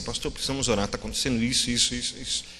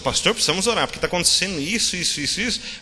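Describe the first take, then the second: First: It sounds sincerely concerned for the person. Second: It sounds eager to spread the gossip.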